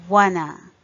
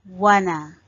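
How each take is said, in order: Both takes have the same delivery.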